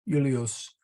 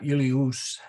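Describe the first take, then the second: First: The last vowel is a short uh sound. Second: The last vowel is a long oo sound. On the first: The speaker calls it right. "it's short. Julius" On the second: The speaker calls it wrong. "not Julius"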